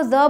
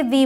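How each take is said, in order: First: The with a short "uh" vowel, "thuh"; pronunciation before consonants. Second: The with an "ee" vowel, "thee"; pronunciation before vowels. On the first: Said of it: "T H ई को the बोलते हैं". (the में छोटी अ की आवाज़) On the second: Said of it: "तो इसे the बोलते हैं". (the में ई की आवाज़) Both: Shown as a demonstration.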